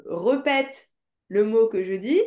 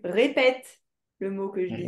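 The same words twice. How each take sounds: First: "répètes" said slowly as re-pète, schwa first; wrong option. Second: "répètes" said ré-pète, clear é first; right option. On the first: Teacher asks pupil to choose, demonstrating the wrong form. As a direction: stretch "répètes" with re- and end rising. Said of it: "Est-ce que". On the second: Teacher asks pupil to choose, demonstrating the right form. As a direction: stress the ré of "répètes", ending on a fall. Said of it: "ou est-ce que tu". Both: Shown as a demonstration.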